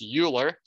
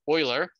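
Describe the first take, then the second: First: The name begins with a 'you' sound. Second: The name begins with an 'oy' sound. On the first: The speaker calls it wrong. "we don't pronounce this as Euler" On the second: The speaker calls it right. "it is Euler"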